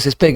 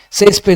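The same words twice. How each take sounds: First: "césped" wrongly stressed on PED; stress on last syllable. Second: "Césped" stressed on CES; stress on first syllable. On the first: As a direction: throw the accent onto PED in "césped". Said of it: "no es césped". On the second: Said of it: "es grave". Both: Shown as a demonstration.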